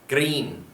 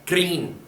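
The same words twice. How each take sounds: First: The word ends with an n sound. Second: The same.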